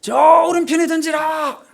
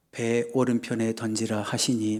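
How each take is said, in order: First: High, loud, drawn-out holler; slow far-carrying shout; shouted command. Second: Low, quiet, measured recitation; subdued liturgical reading, no shouting; scripture reading. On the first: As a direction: yell the order across a long stretch of water. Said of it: "그런 상황 아닙니다". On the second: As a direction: read it slowly and evenly, like a Bible passage. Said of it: "막 이렇게 읽었죠". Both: Shown as a demonstration.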